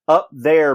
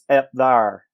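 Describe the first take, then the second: First: The first word has a plain 'uh' vowel. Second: The first word has an 'eh' vowel.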